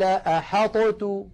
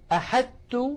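First: The ṭ is released with an echoing bounce. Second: The ṭ fully merges into a doubled t. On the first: "ولو أظهرنا لقلقلنا الطاء ... وهذا أيضا أمر لم تفعله العرب" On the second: "فإن أدغمنا ... قلنا أحدت ... بتاء مشددة، وهذا لم تفعله العرب"

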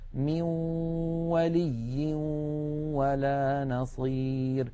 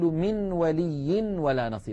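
First: The n merges into a nasalized w. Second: The n is pronounced clearly before the w. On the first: The speaker calls it right. "فنقول" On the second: The speaker calls it wrong. "ولا نقول ... لا نظهر النون هكذا"

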